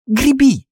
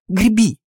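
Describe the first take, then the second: First: Very high, insistent command; desperate-to-get-away urging, pitched very high; more urgent plea. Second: High, insistent urging to row; urgent plea. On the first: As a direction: push the urging right up in pitch. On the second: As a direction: urge your friend on, pitched high. Urging a friend to row away. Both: A narrator's reading.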